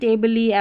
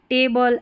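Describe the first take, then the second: First: The word ends with an added lee sound. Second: The word ends with a plain l sound. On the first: The speaker calls it wrong. "तो ऐसे नहीं टेबली ... गलत उच्चारण" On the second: The speaker calls it right. "इसको लॉ पढ़ देना है"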